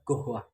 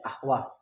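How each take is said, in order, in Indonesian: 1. Kata ini diawali dengan bunyi g. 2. Kata ini diawali dengan bunyi hamzah. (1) "bagi orang Mesir dibaca gohwah"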